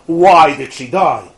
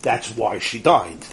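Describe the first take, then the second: First: Stretched, louder anguished question, retold; mock-distraught plea, slow and insistent; freaked out. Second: Low, soft, slow statement of fact; detached, literal reply; technical answer. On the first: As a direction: demand a reason, drawing out WHY. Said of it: "the guy is freaked out". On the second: Retold or imitated. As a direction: explain it quietly, without feeling. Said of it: "it's just technical".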